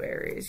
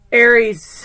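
First: Soft, low-volume mention of Aries; quiet aside. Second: Loud, bold call of the sign; announcing loudly. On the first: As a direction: drop it quietly in passing. Quiet repeat of sign. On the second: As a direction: call out the name like a host. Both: Real, not acted.

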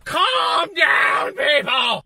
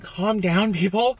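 First: Loud, raised-pitch mock shout; hammed-up holler for order; exasperated shout. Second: Said in the usual way. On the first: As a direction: yell it at an impatient crowd. Acted outburst at impatient crowd.

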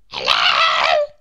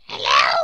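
First: Tiny character yelling full out; long, straining little-voiced shout; shout at the top of voice. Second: Loud, tiny character voice; little voice. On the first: Mister Small tries to reach Mister Tall, shouting. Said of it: "shouted at the top of his voice". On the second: Tiny Mister Small hails the tall walker, little voice. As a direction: pipe up as someone very small. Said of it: "A little voice". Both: A narrator's reading.

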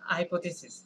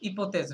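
First: হাইপোথিসিস opening on "hai", four syllables; English pronunciation. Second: ইপোথেস with no H, ending on one S-like sound; French pronunciation. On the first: Teacher shows students the English equivalent, English pronunciation. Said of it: "হাইপোথিসিসের মতো লাগতেছে". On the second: Teacher links French word to English for students, French pronunciation. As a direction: say ইপোথেস the French way, starting on the vowel. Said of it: "ইংরেজির মতো করে চিন্তা". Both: Shown as a demonstration.

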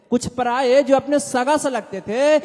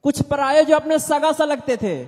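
Both takes have the same delivery.

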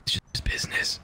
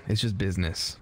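First: Breathy dramatic whisper. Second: Said in the usual way. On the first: Pretend. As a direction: whisper it like a mob boss. Repeated as whisper.

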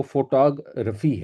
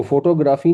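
First: "فوٹوگرافی" as fo-TAA-gruh-fee, slowly; English-accent pronunciation. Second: "فوٹوگرافی" as foto-GRAA-fee, long third vowel; Urdu-style pronunciation. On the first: Teacher corrects learners' form, "فوٹوگرافی" as fo-TAA-gruh-fee. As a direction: stretch "taa" in "فوٹوگرافی" and shorten "gra". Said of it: "یہ ان کی زبان کا accent ہے". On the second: Teacher shows learners the wrong form, "فوٹوگرافی" as foto-GRAA-fee. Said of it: "جس کو ہم فوٹوگرافی کہتے ہیں اور لکھتے ہیں". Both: Shown as a demonstration.

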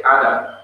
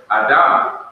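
First: "Adam" said the English way, AD-am; "Adam" with an unstressed last syllable; stress on first syllable. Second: "Adam" as a-DAM, second syllable stressed and louder; "Adam" said the Hebrew way, ah-DAHM; stress on last syllable. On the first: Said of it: "They didn't say Adam". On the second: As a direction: hit the final syllable of "Adam". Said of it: "the accent was on the last syllable". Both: Shown as a demonstration.

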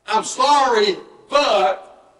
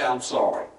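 First: "I'm sorry" pitched up, then stressed "but"; apology with but. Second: Soft, lower "I'm sorry"; simple apology. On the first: Preacher showing the wrong apology, stressing "but". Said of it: "leave the but out". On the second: Preacher showing the apology without the but, quiet and simple. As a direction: say it quietly and let it drop. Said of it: "leave the but out, say". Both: Shown as a demonstration.

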